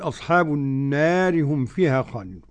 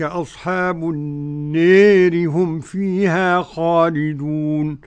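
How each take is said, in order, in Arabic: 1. الألف الممدودة في 'nar' مفتوحة تماماً. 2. الألف الممدودة في 'nar' تميل بشدة نحو الكسرة. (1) "والبقول" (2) "والإمالة فضيلة الشيخ لأبي عمرو ودور الكسائي"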